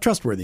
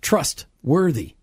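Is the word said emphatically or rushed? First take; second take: rushed; emphatic. First: The word is rushed through without emphasis. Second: The word is said slowly with strong emphasis. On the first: The speaker calls it wrong. "Not trustworthy, because a lot of us just kind of blow into that word" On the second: The speaker calls it right. "But trustworthy, that God is actually trustworthy"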